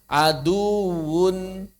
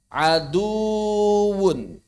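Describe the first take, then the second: The two takes are said the same way.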